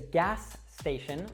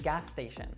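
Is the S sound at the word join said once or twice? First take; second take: twice; once. First: Both S sounds are pronounced separately. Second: One S sound links the two words.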